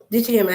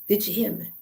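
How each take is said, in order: First: It is said in her normal accent. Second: It is said in a country accent.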